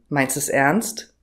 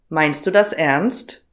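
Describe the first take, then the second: First: 'Das' is cut to a bare s sound. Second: The word 'das' is said in full.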